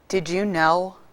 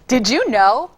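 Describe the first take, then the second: First: It is said in a sad tone. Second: It is said in a happy tone. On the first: "Let me give it to you, sad" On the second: "Now I can give it to you, happy"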